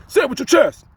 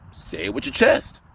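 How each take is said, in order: First: High loud punchy quote; Kevin Hart. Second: Said in the usual way. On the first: Retold or imitated. Quoting Kevin Hart, loud and high. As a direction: bark it out from the chest. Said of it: "is Kevin Hart coined it".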